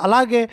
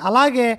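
No difference in how they are said.

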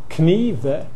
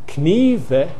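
First: The K is sounded at the start. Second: The K is sounded at the start.

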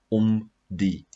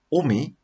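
First: The two words are said as separate words. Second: The two words are merged into one word. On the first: The speaker calls it right. "wat veronderstel is om te wees, om die" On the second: The speaker calls it wrong. "as daar twee woorde saamgevoeg word, byvoorbeeld omi"

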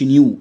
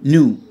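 First: The vowel starts with a y-glide: nyoo. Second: The vowel is a plain oo sound: noo. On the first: The speaker calls it wrong. "ما تقولش نيو" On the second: The speaker calls it right. "الاي يو بتعمل او"

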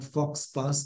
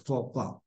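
First: It is said with an English-style pronunciation. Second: It is said with a French-style pronunciation. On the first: The speaker calls it wrong. "It's not faux pas" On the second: The speaker calls it right. "but faux pas"

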